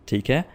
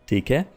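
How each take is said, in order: The two takes are said the same way.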